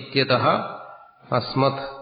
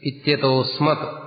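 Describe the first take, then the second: First: The words separate, with 'ha' then a full 'a'. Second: The words merge, ending in 'o' with no 'a'. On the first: The words are split back into their parts. "ഇത്യതഹ അസ്മത് എന്ന് വരും" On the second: The sandhi form is read as written. "ഇത്യതോ അസ്മത് എന്ന് ചേർത്തങ്ങ് വായിച്ചാൽ മതി"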